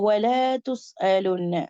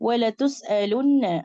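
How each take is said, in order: First: The vowel is slightly stretched out. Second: The vowel is kept short. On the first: The speaker calls it wrong. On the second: The speaker calls it right.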